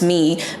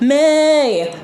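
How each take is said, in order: First: The word has its usual 'ee' vowel. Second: The vowel is changed to an 'ay' sound.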